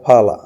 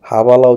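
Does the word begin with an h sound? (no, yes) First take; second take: no; yes. First: The word starts without any h sound. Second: The word starts with an audible h sound. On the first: The speaker calls it right. "তো এরা উচ্চারণ করে ফালা" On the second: The speaker calls it wrong. "তো হাবালা উচ্চারণ হবে না"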